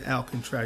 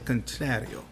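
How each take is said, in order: First: The name is said in a plain, flat way. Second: The name is said in a sultry, seductive way. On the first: The speaker calls it wrong. "You can't just say" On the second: The speaker calls it right. "That is that makes it even sexier"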